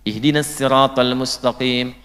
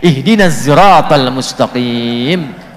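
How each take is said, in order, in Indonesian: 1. Siratal diawali dengan bunyi s biasa. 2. Siratal diawali dengan bunyi z. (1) "harusnya pakai sin" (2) "yang benar pakai zai"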